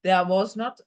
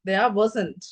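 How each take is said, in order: First: 'Not' is said as a full separate word. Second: 'Not' is contracted and joined to 'was'. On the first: "was not, there was not சொல்லி கொண்டு இருக்க மாட்டாங்க" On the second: "நார்மலா பேச்சுவார்த்தையில டக்குன்னு சொல்ற விஷயம் there wasn't"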